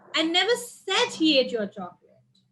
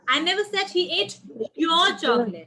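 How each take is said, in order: First: The stress falls on the word said. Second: The stress falls on the word your. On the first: It was only thought, not said. "I only thought maybe" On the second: The chocolate belonged to someone else. "It was not yours"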